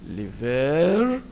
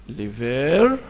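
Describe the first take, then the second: No difference in how they are said.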